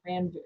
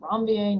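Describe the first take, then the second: First: The name is pronounced the English way. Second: The name is pronounced the French way. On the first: The speaker calls it wrong. "not Ranvier" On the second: The speaker calls it right. "a French word, so Ranvier"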